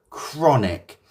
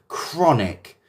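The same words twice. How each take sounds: The two takes are said the same way.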